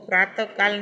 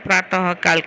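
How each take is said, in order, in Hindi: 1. 'praata' के बाद कोई 'h' ध्वनि नहीं है। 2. 'praata' के बाद 'h' ध्वनि आती है। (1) "इसको प्रातः काल नहीं कहना है" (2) "उसको ह बोलना है, तो प्रातः काल कहना है"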